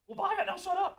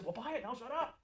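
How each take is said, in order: First: High, loud, cheeky mock-blunt quip; a sales tech teasing a customer, high and loud; joking bluntness. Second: A lighter, higher retelling of the cheeky quip; retelling the quip to a trainee, mildly playful; joking bluntness. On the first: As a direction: toss "buy it, now shut up" off as a brash joke. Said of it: "I would say it like that as a joke". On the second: Retold or imitated. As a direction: say "buy it, now shut up" as a half-hearted joke. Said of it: "they would kinda laugh nervously".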